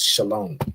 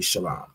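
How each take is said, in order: First: The word is said with an o vowel. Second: The word is said without an o vowel. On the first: This is how others commonly say it. The speaker calls it wrong. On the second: This is the original form from the root. The speaker calls it right. "But it would really be shalom"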